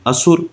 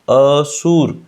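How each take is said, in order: First: The first syllable a is not stressed. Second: The first syllable a is stressed.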